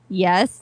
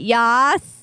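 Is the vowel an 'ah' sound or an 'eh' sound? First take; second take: eh; ah. First: The vowel is an eh sound, as in 'yes'. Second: The vowel is an ah sound, as in 'yas'. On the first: The speaker calls it right. "yes, not yas" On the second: The speaker calls it wrong. "not yas"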